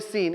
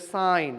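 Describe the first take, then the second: First: The word rhymes with seen. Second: The word rhymes with sign. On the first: The speaker calls it wrong. "pronounce like seen. It's not a seen" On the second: The speaker calls it right. "it's a sine"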